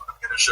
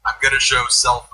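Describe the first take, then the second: First: Squeaky high. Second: Said in the usual way. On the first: Shown as a demonstration. Host teasing co-hosts, very high squeaky voice. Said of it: "repeats the line, very high". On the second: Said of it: "repeats the line".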